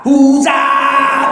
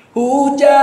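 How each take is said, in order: First: [name] shouted loud in blunt Batak style; [name], louder and blunt, Batak manner; Minang song Batak style. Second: Minang style. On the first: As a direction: bark [name] like a Batak singer. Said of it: "Coba lihat Minang gaya Batak". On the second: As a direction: sing [name] the Minang way, smooth. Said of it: "Lagu Minang tuh baru enak kalau pakai logat Minang". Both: Shown as a demonstration.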